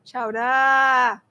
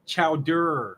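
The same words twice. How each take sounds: First: "Chowder" ending in a long "dah"; dropped R. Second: "Chowder" with a strong final R; R pronounced. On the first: Real, not acted. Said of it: "you're saying duh". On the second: Shown as a demonstration. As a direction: stretch the R at the end of "Chowder". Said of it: "Say chowder".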